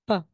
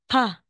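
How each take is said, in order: First: The consonant has no puff of air. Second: The consonant has a strong puff of air. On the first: The speaker calls it right. "walang hangin" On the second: The speaker calls it wrong.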